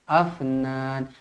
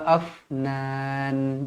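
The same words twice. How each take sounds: First: The f bounces with a slight vowel. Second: The f is held still and breathy. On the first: The speaker calls it wrong. "Jangan afnan, afnan, tak nak" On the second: The speaker calls it right. "matikan terus"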